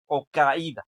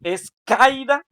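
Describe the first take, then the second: First: Said in the usual way. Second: "caída" drawn out slowly, pitched higher and louder; exaggerated mispronunciation. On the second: Shown as a demonstration. Teacher quizzing students, "caída" said slowly, much higher and louder. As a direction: stretch "caída" slowly, voice jumping up high and loud. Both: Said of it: "¿Cómo se dice correctamente?".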